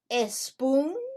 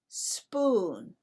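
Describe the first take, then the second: First: An extra e sound comes before the s. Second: The word starts directly with the s sound. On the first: The speaker calls it wrong. "Do we say a spoon or do we say spoon?" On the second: The speaker calls it right. "We say spoon"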